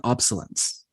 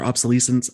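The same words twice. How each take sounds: First: "obsolescence" said as OB-suh-lence; first pronunciation attempt. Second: "obsolescence" said as ob-suh-LEE-sence; alternative pronunciation. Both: Shown as a demonstration. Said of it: "I don't know how to pronounce it".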